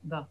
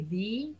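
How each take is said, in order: First: "the" said as a quick weak "thuh"; reduced the. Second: "the" said as full "thee". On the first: Teacher showing the reduced "the". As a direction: let "the" fall into a short schwa. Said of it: "we say the". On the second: Teacher showing the wrong full "the". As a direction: say "the" with a long ee vowel. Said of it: "We don't say the". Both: Shown as a demonstration.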